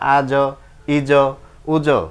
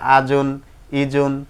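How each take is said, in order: First: Each syllable stops short on its consonant. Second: Each syllable ends with its full nasal ending. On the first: The reader stops at this point. "এটাই আরজি সাকিন দুই পেশে থামিলে সাকিন ধরে পড়তে হয়" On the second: The reader continues without stopping. "দুই পেশে না থামিলে যেমন আছে তেমন করে পড়তে হয়"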